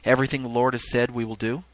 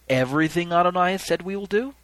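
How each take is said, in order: First: It ends falling, like a statement. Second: It ends rising, like a question.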